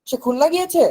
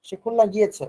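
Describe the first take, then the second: First: Much higher, asking with "গিয়েছে" lifted; rising question tune. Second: Plain statement falling on "গিয়েছে"; "খুলনা গিয়েছে" going down, not asked; falling tune. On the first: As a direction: turn "সে খুলনা গিয়েছে" into a question. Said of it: "raising tune use করতে হবে". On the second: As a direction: let "গিয়েছে" drop as a simple fact. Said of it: "falling tune at the end". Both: Shown as a demonstration.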